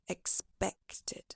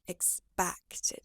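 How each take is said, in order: First: The stressed vowel is an E sound. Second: The stressed vowel is a wide A sound. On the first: The speaker calls it right. "Try adjusting it to an E sound, so it sounds like expected" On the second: The speaker calls it wrong. "rather than expected"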